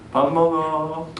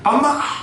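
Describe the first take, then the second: First: It is said in a gentle, kind tone. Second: It is said in a harsh, irritating tone.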